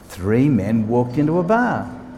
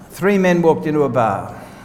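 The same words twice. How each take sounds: First: The word bar is given strong stress. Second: No single word is given special stress.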